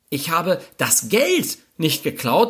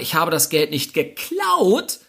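First: The word "Geld" is stressed. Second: The word "geklaut" is stressed. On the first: Something other than the money was taken. "irgendwas habe ich geklaut, es war allerdings nicht das Geld" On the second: The money was obtained some other way, like borrowing. "ich habe es mir geliehen oder organisiert"

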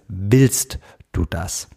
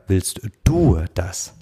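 First: The stress is on the word willst. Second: The stress is on the word du. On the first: Asks whether the wish is truly heartfelt. "Also der Fokus auf dem Wollen, dem willst du" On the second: Asks whether the wish is one's own, not others'. "Oder kommt es vielleicht von außen? ... ob du wirklich willst"

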